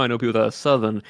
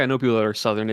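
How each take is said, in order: First: "Southern" with dropped R, Southern accent. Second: Said in the usual way. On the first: Shown as a demonstration. Showing co-host how the accent takes over, Southern accent. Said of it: "I just start talking like that". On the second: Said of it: "It's not like".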